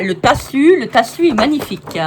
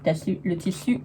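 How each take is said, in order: First: "tassu" said with an a for the i, louder and higher; playfully mangle "tassu" instead of tissu; invented word. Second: Said in the usual way. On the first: Pretend. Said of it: "J'invente des mots". ("tassu" prononcé avec un a, plus fort et plus aigu)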